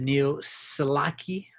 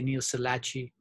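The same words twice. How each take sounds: First: The middle consonant is a k sound. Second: The middle consonant is a ch sound. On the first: The speaker calls it right. "C H should be a K" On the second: The speaker calls it wrong. "Sometimes I say"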